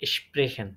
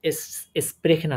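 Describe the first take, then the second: First: The word begins with an sh sound. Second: The word begins with a plain s sound. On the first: The speaker calls it right. "তখন স্প্রেখেন এরকমই হয়ে যাচ্ছে" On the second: The speaker calls it wrong. "এস স্প্রেখেন আর হচ্ছে না"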